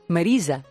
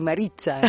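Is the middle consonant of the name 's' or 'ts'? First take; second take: s; ts. First: The middle consonant sounds like a plain 's'. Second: The middle consonant sounds like 'ts'. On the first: This is the real form of the name. "¿Cómo se dice de verdad?" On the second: This is how a family member who mixed languages said it. "casi como lo decía tu abuelo"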